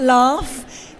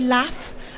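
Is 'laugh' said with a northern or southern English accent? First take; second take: southern; northern. First: It is said in a southern English accent. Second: It is said in a northern English accent. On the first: "and not laugh" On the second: "I am from the north, so I say laugh"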